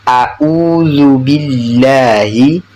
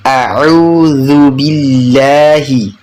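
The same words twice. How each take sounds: First: Slow A'udzu read as a-udzu, plain glottal onset on the u; hamzah for ain. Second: Slow A'udzu with the 'u squeezed from mid-throat as ain; correct ain. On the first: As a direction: recite A'udzu billahi drawn out, without the throaty ain. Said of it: "Ada yang membaca". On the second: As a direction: recite A'udzu billahi drawn out, with a true throaty ain. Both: Shown as a demonstration.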